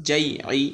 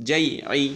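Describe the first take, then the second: The two takes are said the same way.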